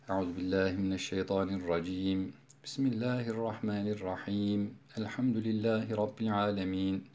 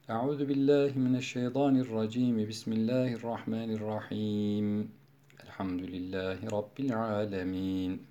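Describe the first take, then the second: First: There is a pause after each of the phrases. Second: There is a pause after the second phrase only. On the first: "Sure başındaki vecihler kat'ul küldü. Her bir arada nefes aldık" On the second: "Sure başında vaslul evvel kat'ul sani"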